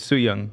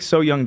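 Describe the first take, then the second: First: The first syllable sounds like 'sue'. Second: The first syllable sounds like 'so'. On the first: The speaker calls it right. "but it's Soo Young" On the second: The speaker calls it wrong. "they make So Young jokes"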